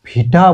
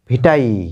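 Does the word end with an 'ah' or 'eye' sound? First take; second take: ah; eye. First: The word ends with an 'ah' sound. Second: The word ends with an 'eye' sound. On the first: The speaker calls it wrong. "আমরা হয়তো ভিটা বলি" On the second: The speaker calls it right. "Exactly উচ্চারণটা ভিটাই"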